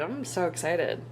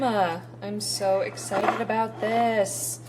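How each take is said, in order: First: Said in the usual way. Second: Slow, stretched, thrilled; drawn-out excitement. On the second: Real, not acted. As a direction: savor every word with glee. Excited about the finished chicken.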